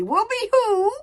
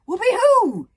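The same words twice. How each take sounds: First: High echoing whoop, a touch urgent. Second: High, loud joyful whoop. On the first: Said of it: "said One Eye urgently". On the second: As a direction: whoop as you launch. Joyous cry leaping off cliff. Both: Acted.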